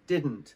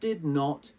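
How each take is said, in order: First: It is said as one contracted word, 'didn't'. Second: It is said as two full words, 'did not'. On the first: The speaker calls it right. "You say didn't" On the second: The speaker calls it wrong. "it's not did not ... But you don't say that"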